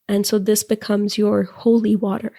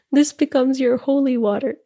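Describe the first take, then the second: First: Said in the usual way. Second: "This becomes your holy water" said higher with a teary laugh; real, tearful laugh on "This becomes your holy water"; moved to tears, laughing. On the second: Real, not acted. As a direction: let the emotion break through the laugh on "holy water". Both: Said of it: "I think I'm gonna cry again".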